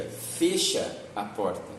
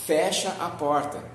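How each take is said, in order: First: "fecha" with a closed e, slow, fêcha; fecha fechado. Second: "fecha" with an open e, fÉcha; fecha aberto. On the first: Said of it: "mas tem quem diga". ("fecha" com ê fechado, devagar) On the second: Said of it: "Eu falo pra você". ("fecha" com é aberto, fécha) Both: Shown as a demonstration.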